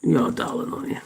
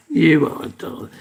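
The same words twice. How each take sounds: First: Soft, breathy whisper to the dog; hushed, unvoiced "You are a darling"; whispered pet talk. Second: Said in the usual way. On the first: Real, not acted. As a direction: whisper it tenderly to him. Murmuring to the pet.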